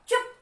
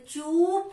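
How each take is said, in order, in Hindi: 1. स्वर को छोटा रखा गया है। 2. स्वर को लंबा खींचा गया है। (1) "थोड़ा कम समय लगा" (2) "मिसने चुप नहीं कहा"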